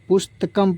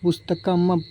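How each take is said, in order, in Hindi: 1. अंतिम म छोटा कटा हुआ है, इसमें कोई स्वर नहीं है। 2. अंतिम म पूरी तरह स्वर-युक्त है, जैसे एक पूरा अक्षर। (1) "पुस्तकम पढ़ते हैं" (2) "ना कि पुस्तकम पढ़ते हैं"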